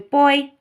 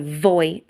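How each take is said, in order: First: The word starts with a b sound. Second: The word starts with a v sound. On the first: The speaker calls it right. "It's a boy sound" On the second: The speaker calls it wrong. "I'm not pronouncing as a voy sound"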